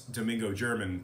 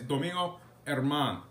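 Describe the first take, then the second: First: The surname begins with a J sound. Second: The surname begins with an H sound. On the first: The speaker calls it wrong. "it's Domingo German to a lot of folks. But that's not how you say it" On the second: The speaker calls it right. "It's Domingo Herman"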